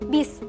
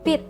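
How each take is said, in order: First: The word ends with an s sound. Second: The word ends with a t sound. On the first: The speaker calls it wrong. "bukan bis" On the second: The speaker calls it right. "tetapi bit"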